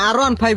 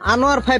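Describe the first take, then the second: First: The name sounds like 'R one five'. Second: The name sounds like 'Anwar five'. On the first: The speaker calls it right. "আর ওয়ান ফাইভ হইবে" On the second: The speaker calls it wrong. "তুই তো নামটাই উচ্চারণ করতে পার না ঠিক মতো"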